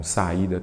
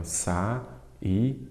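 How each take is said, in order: First: Said in the usual way. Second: "Sa-ida" broken as sa, í, da with pauses; split into syllables. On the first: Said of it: "Então, saída tem acento". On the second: Shown as a demonstration. Teacher giving students an example, "Sa-ida" syllable by syllable. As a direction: say "Sa-ida" one syllable at a time. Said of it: "Sempre dou esses exemplos".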